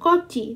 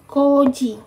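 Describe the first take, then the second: First: The middle consonant is a voiceless 'ch' sound. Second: The middle consonant is a voiced 'j' sound. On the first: The speaker calls it wrong. "bukan koci" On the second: The speaker calls it right. "tapi koji"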